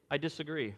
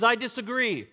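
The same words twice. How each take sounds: First: Said in the usual way. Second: Higher, louder mock objection; mock Satan objection. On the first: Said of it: "nobody in that courtroom that can say". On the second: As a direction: jump up and object loudly as Satan. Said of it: "he comes up and he says".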